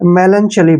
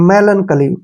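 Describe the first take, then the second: First: The middle consonant is a 'ch' sound. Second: The middle consonant is a 'k' sound. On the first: The speaker calls it wrong. "वो इसको मेलनचली बोलेंगे, जो कि अक्सर गलत है" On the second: The speaker calls it right. "सी एच का उच्चारण यहाँ पे कै करेंगे"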